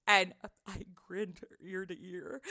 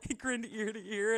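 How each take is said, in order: First: Slow, grinning through a laugh; laughing while speaking. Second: Said in the usual way. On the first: Real, not acted. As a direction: let the grin break into a laugh.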